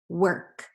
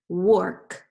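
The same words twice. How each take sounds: First: The vowel sounds like 'er', as in her. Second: The vowel sounds like 'or', as in fork. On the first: The speaker calls it right. "I'm going to read this word w, er, k ... That sounds right" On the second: The speaker calls it wrong. "I say w or k, ... that does not sound right"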